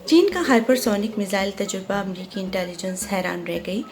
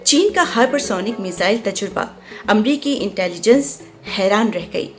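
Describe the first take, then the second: First: It is read listlessly, with no expression. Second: It is read lively, with clear expression. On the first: "मैं बेजारी से पढ़ रही हूँ तो इसमें कोई एक्सप्रेशन नहीं है" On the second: "अब मैं वॉइस ओवर कर देती हूँ"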